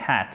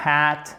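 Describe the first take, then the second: First: "hat" with a short A of normal length; short vowel. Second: "hat" with the A dragged out too long; long vowel. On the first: Teacher correcting the learners' vowel, short-A "hat". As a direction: keep the A in "hat" brief, lower and softer. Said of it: "prononcer le A avec une longueur normale". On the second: Teacher showing francophone learners the error, long-vowel "hat". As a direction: stretch the vowel in "hat", as a mistake. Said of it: "accourt, ok? C'est pas hat, mais hat". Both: Shown as a demonstration.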